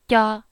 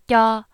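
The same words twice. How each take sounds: First: The syllable is crisp with little air. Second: The same.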